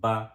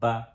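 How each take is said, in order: Both takes have the same delivery.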